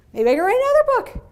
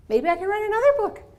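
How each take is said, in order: First: Higher, louder and fast, bursting with glee; building excitement. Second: Excited daydream. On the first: Speaker imagining more books, gleefully higher and louder. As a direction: let the dream run away with you. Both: Retold or imitated. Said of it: "I was like".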